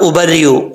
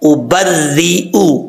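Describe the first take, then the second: First: The r sound is short and single. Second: The r sound is held and doubled. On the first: The speaker calls it wrong. "ऐसे नहीं पढ़ना" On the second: The speaker calls it right. "यहां पर आपने रा को मुशद्दद पढ़ना है"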